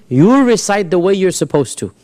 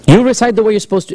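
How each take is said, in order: First: Said in the usual way. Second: Insistent, urgent repeat; emphatic repeat. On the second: Acted. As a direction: drive the command home.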